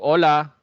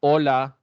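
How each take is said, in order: Both takes have the same delivery.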